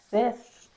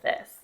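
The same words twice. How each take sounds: First: The s sound is lisped. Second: The s sound is clear. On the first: The speaker calls it wrong. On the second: The speaker calls it right.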